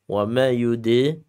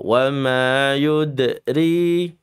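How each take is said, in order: First: The d has a small, light echo bounce. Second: The d has a strong, heavy echo bounce. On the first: The speaker calls it right. "qalqalahnya sughra ya" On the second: The speaker calls it wrong. "Jangan kubra. ... Enggak boleh"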